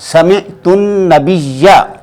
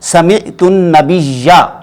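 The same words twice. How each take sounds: First: The last word ends with an 'a' vowel. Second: The last word ends with an 'a' vowel.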